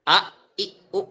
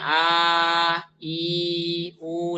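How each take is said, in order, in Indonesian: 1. Setiap vokal dimulai dengan hentian glotis. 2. Vokal-vokal mengalir mulus tanpa hentian glotis. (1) "Tidak ada hamzahnya. Jadi jangan a, i, u" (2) "Jadi nyebutnya a, i, u"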